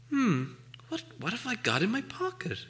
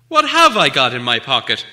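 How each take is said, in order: First: Musing aloud. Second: Insistent, noticeably louder. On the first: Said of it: "he said aloud". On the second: Bilbo repeats his riddle to Gollum, louder and insistent. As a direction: press the question firmly at him. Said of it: "he said louder". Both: Acted.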